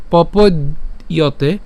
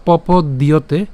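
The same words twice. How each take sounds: First: পপদ্যতে split as "popod - yote"; first pronunciation option. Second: পপদ্যতে split as "popod - dyote"; alternative pronunciation. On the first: Teacher showing one option, পপদ্যতে broken before "yote". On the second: Teacher showing the alternative, পপদ্যতে ending in "dyote". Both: Shown as a demonstration. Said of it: "অথবা পপদ্যতে".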